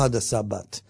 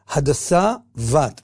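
First: The second word begins with a hard b sound. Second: The second word begins with a soft v sound. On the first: The speaker calls it wrong. "לא" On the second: The speaker calls it right. "הבית של המילה בת היא רפויה"

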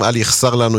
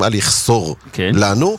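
First: The vowel after the s is kamatz. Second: The vowel after the s is o. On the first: "עם קמץ" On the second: "יש כאלה שהוגים"

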